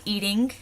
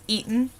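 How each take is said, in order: First: Said in the usual way. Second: "eaten" for eating, g dropped; dropped ing. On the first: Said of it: "wouldn't be eating". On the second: Shown as a demonstration. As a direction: clip eating to "eaten", no final ng. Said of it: "it'd be eaten".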